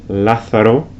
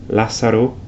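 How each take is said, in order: Both takes have the same delivery.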